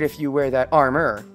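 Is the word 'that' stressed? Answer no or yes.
no. The word 'that' is not stressed. The speaker calls it wrong. "I am putting emphasis on the wrong words"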